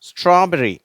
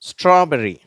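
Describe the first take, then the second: No difference in how they are said.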